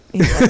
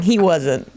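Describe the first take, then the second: First: "He wasn't" said louder with a rising end; emphatic repeat. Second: Said in the usual way. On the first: Shown as a demonstration. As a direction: repeat "He wasn't" harder, to drive it home.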